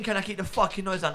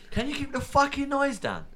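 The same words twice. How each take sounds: First: High, disbelieving echo of their words; mocking the neighbour in disbelief; incredulous mock repeat. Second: Angry neighbour yell. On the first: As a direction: throw their line back in disbelief. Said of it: "What do you mean". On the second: Retold or imitated. Neighbours yelling from their houses.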